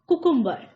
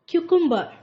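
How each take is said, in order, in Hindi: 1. यह शब्द सादी 'koo' ध्वनि से शुरू होता है। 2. यह शब्द 'kyoo' ध्वनि से शुरू होता है। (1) "कुकुम्बर एक गलत उच्चारण है।" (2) "इसका सही उच्चारण क्या है फ्रेंड्स?"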